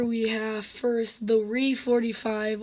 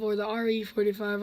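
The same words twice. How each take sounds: First: "re" said as one word, like "ree". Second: "R E" spelled as two letters, "ar ee". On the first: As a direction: read "re forty-five" as the word "ree". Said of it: "I like to call it the Re". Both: Shown as a demonstration.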